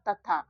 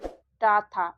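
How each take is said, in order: First: The first syllable has a short dental 'ta' sound. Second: The first syllable has a long retroflex 'Taa' sound. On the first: The speaker calls it right. "इसको केवल त पढ़ेंगे, इसमें अ की मात्रा नहीं लगाएंगे" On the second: The speaker calls it wrong. "या फिर इसको हम लोग पढ़ेंगे टा था"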